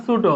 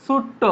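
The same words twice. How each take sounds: First: Said in the usual way. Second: ছোট্ট with a held double retroflex t; doubled t. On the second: Shown as a demonstration. Teacher contrasting ছোট with the doubled form, held double t. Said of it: "দ্বিত্ব উচ্চারণ হবে".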